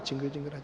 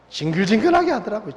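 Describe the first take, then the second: First: 징글징글하게 repeated much softer, lower, to himself; murmured echo. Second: Said in the usual way. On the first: Real, not acted. Recalling his tormentor, he murmurs 징글징글하게 much softer, lower. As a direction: mutter 징글징글하게 under the breath in disgust.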